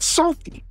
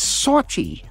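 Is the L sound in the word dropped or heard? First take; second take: heard; dropped. First: The L sound is clearly pronounced. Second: The L sound is dropped, like sawty. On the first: The speaker calls it wrong. "not salty" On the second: The speaker calls it right.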